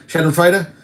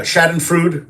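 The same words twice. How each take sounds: First: Schadenfreude said as SHAH-den-froy-duh with a rising question; careful German Schadenfreude with a final duh; corrected German try. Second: Schadenfreude said as SHAH-den-frood, last syllable like food; first try at the word. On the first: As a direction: Schadenfreude ending in froy-duh, tentatively asked. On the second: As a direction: Schadenfreude ending on a clipped frood with no final vowel. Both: Shown as a demonstration. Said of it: "What is that how you say it?".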